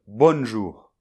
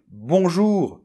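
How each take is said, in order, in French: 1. Une consonne n est prononcée après la voyelle. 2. La voyelle nasale n'a pas de consonne n après elle. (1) "Je ne vais pas dire" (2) "Je vais dire"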